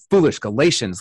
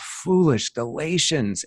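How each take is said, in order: First: It is said in an exasperated, fed-up tone. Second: It is said in a sad, heartbroken tone. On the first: The writer is fed up with the readers. "I heard just exasperation" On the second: The writer is grieved by the readers. "he read it with a tone of Paul just being heartbroken"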